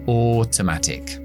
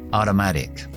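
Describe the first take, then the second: First: The T sounds are crisp and clear. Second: The T sounds are quick taps like D. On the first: "Británico" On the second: "para la pronunciación estadounidense vamos a debilitar las dos T's"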